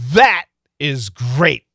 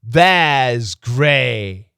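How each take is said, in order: First: The final T is cut off with a stop. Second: The final T has no stop at all. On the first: The word is emphasized. The speaker calls it right. "we'll stop the T" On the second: It sounds like a different word. The speaker calls it wrong. "If there is no stop"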